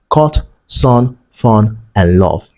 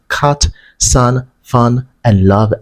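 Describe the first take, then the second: First: The vowels are a rounded 'o' sound. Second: The vowels are not a rounded 'o' sound.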